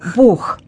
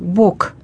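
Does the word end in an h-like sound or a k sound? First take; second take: h-like sound; k sound. First: The word ends in a breathy h-like sound. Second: The word ends in a voiceless k sound. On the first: The speaker calls it right. "нужно произносить не звук «к», а звук «х»" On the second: The speaker calls it wrong. "некоторые произносят слово «Бог» вот так"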